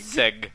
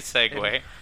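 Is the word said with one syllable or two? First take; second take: one; two. First: The word is said with one syllable. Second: The word is said with two syllables. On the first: The speaker calls it wrong. "Walter's been saying seg a lot" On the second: The speaker calls it right. "It's definitely Segway"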